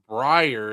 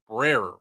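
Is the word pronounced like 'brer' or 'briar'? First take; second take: briar; brer. First: It is pronounced like 'briar'. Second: It is pronounced like 'brer'. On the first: The speaker calls it wrong. "so it's not Briar" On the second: The speaker calls it right. "it's Brer, B R E R"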